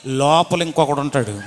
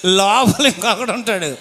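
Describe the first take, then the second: First: Said in the usual way. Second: లోపల pressed harder and louder; stress on లోపల. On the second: Shown as a demonstration. Repeating that another voice sings inside, stressing లోపల. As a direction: lean on లోపల.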